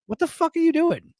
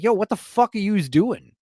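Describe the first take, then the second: First: Mock [name], pitched much higher; cartoonish higher take on [name]'s line; exaggerated [name]. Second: A light hint of [name]'s street swagger; a mild [name] impression; imitating [name]. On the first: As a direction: repeat it in a hammed-up, squeaky disbelief. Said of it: "he's like". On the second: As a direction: toss it off like a rough New York guy. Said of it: "[name] runs into her ... he's like".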